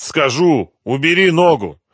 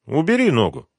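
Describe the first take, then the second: First: High, loud desperate plea; strained surrender. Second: Raised but less forceful command; permitting order. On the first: Captive begging gangster to lift his foot, strained. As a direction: give in and beg loudly. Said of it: "выдавил артист". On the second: Gangster letting his henchman ease off, permitting. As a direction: grant it as a brief order. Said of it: "разрешил Митя". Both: A narrator's reading.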